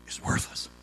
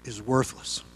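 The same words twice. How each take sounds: First: Breathy whisper of "Is worthless"; hushed, voiceless "Is worthless"; whispered repeat. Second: Softer, lower echo of worthless; quiet, weighty echo of "Is worthless"; quiet repeat. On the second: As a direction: let "Is worthless" drop down and soften. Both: Shown as a demonstration.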